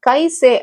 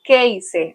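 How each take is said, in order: First: The first vowel sounds like 'eye'. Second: The first vowel sounds like 'ay'. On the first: The speaker calls it wrong. "கைசே அப்படின்னு சொல்லக்கூடாது" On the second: The speaker calls it right. "அந்த மாதிரி கேய்சே அப்படி சொல்லணும்"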